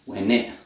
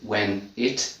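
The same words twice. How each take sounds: First: The T at the end is dropped. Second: The T at the end is pronounced. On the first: "But then I don't say the T" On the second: "So we've got connected speech"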